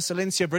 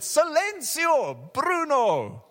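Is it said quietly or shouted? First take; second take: quietly; shouted. First: It is said quietly and half-heartedly. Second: It is shouted loudly and forcefully.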